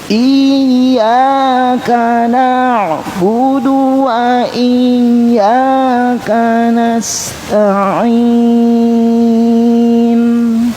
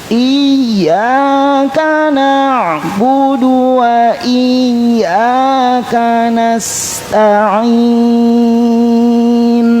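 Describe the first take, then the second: The two takes are said the same way.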